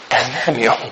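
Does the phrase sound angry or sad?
sad. It is said in a sad, sorrowful tone. The anger has turned into sadness. The speaker calls it right. "hanem ez nem jó. Ez szomorú"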